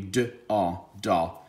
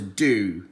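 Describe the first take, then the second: First: It is sounded out, ending in an 'ah' sound. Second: It is said whole, ending in an 'oo' sound. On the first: The speaker calls it wrong. "If you try to sound this one out, it would be d-a-da. No" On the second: The speaker calls it right. "so this word is do"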